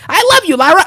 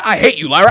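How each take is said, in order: First: High, gushing adoration; sing-song love, pitched way up; mock lovestruck squeal; gushing split personality. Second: Dropped, sour mock hatred; hateful split personality. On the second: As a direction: switch abruptly to loathing. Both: Acting wrestler's split personality.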